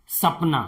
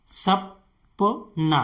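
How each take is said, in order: First: Said in the usual way. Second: सपना stretched out slowly, the प held; slow model word. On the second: Shown as a demonstration. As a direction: drag सपना out so students hear each sound. (सपना को धीरे-धीरे खींचकर बोलना) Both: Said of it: "तो इसे हम कैसे पढ़ते हैं?".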